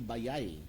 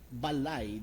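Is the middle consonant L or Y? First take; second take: Y; L. First: The middle consonant is a Y sound. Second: The middle consonant is an L sound. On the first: This is how Surigao speakers say it. "they change the L to Y" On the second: This is the standard form. "instead of saying balay"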